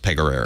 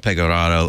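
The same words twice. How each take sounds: First: The vowels are flattened, in a Midwestern style. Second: The vowels are full, in an Italian style. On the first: "the vowels get flattened, and so is Pegararo" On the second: "In Italy, it's more Pegararo"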